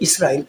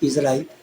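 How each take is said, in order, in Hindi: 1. दूसरा व्यंजन एक सादा s की आवाज़ है। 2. दूसरा व्यंजन एक गूँजती हुई z की आवाज़ है। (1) "इसको इसराइल पर अनाउंस करें" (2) "इज़राइल न करें"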